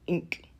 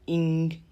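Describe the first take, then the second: First: The word ends with a hard k sound. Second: The word ends with a soft g sound. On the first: "or ink" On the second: "it could be rendered either as ing"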